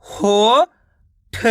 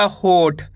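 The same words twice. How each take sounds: First: हो long and rising, pause, then ठ; हो ... ठ as two split sounds; syllable by syllable. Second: Said in the usual way. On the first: Shown as a demonstration. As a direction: sound out हो and ठ separately. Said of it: "एक अक्षर का उच्चारण करके". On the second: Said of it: "मिलके बन जाएगा".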